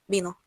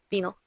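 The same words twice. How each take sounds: Both takes have the same delivery.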